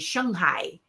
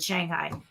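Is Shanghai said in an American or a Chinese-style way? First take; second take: Chinese-style; American. First: It is said in a Chinese-style way. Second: It is said in an American way. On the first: This is the proper local pronunciation. The speaker calls it right. "is how you're supposed to say it" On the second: This is the usual American pronunciation. The speaker calls it wrong. "I've always said Shanghai"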